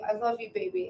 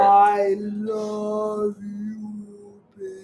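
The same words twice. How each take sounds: First: It is said at normal speed. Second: It is said very slowly, drawn out.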